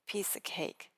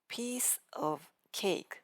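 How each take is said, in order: First: The word 'of' is reduced to 'a'. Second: The word 'of' keeps its full V sound.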